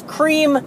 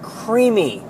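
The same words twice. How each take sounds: First: "cream" as one high-pitched syllable; correct cream. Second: "creamy" drawn out with an extra "ee" ending; wrong creamy. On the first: Worker correcting donut customers, emphatic one-syllable cream. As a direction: stress "cream" high, with no ending added. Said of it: "it's cream, not creamy". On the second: Worker quoting customers' mistake, drawn-out creamy. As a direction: stretch "creamy" slowly into two syllables. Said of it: "not creamy". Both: Shown as a demonstration.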